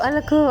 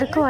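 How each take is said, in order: First: The middle consonant is an L sound. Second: The middle consonant is an R sound. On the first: This is how the child says it. The speaker calls it wrong. "అలకు అలకు అంటది" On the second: This is what the child does not manage to say. The speaker calls it right. "అరకు అనదు"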